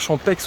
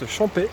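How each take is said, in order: First: The final x is sounded as ks. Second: The final x is silent. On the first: The speaker calls it wrong. "on ne prononce pas Champex" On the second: The speaker calls it right. "on prononce Champais"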